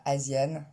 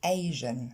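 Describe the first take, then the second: First: Asian as zjɛn with French yan; imitating French Asian; French-style Asian. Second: Asian as aʒɛn, no yan sound; English Asian. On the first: Teacher shows learners' wrong Asian. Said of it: "on ne dit pas". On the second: Shown as a demonstration. Teacher gives the right Asian right after the wrong one. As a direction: Asian low and smooth. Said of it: "mais on dit".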